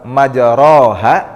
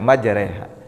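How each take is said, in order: First: The vowel after the r sounds like 'a'. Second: The vowel after the r sounds like 'e'. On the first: "setiap alif yang berokat fathah itu dibaca a" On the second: "ini dibacanya e sehingga menjadi majreha"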